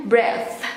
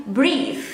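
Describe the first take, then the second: First: "breath" with a short e, "breth"; short vowel pronunciation. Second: "breathe" with a long ee, "breeth"; long vowel pronunciation. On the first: Teacher reading the spelling without E, "breath" as short "breth". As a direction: say "breath" to rhyme with "death". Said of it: "Kalau nggak pakai E, bacanya". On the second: Teacher reading the spelling with E, "breathe" as long "breeth". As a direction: stretch the ee in "breathe". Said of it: "Tapi ini pakai E, jadi bacanya". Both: Shown as a demonstration.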